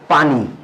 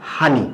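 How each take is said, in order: First: The word begins with a p sound. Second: The word begins with an h sound. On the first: "আমরা ব্যবহার করি একটা শব্দ পানি" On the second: "নোয়াখালীতে উচ্চারণ করা হয় হানি"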